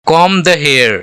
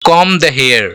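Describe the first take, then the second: Both takes have the same delivery.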